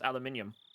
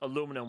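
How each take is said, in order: First: It is said in a British accent. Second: It is said in an American accent. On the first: "we pronounce this aluminium" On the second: "how you guys pronounce aluminum"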